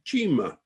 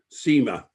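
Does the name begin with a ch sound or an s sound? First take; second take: ch; s. First: The name begins with a ch sound. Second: The name begins with an s sound. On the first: This is how an Italian speaker would say it. The speaker calls it wrong. "an Italian would, you would think, would pronounce it Cima, as in Cinque or Arrivederci" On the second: This is how the family itself said the name. The speaker calls it right. "the enlistment clerk has written very clearly Seymour"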